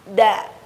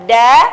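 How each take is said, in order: First: The d is made at the upper teeth. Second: The d is made further back on the gum. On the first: The speaker calls it right. "dengan menempelkan ujung lidah ke pangkal gigi seri atas" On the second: The speaker calls it wrong. "ujung lidah kita tidak bertemu dengan pangkal gigi seri atas, melainkan bertemu dengan gusi"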